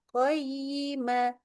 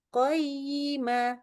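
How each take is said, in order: The two takes are said the same way.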